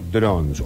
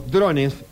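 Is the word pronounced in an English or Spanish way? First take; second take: English; Spanish. First: The word is pronounced the English way. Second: The word is pronounced the Spanish way.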